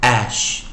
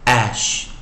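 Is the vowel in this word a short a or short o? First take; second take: short a; short a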